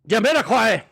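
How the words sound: It is screamed loudly in a Scottish accent.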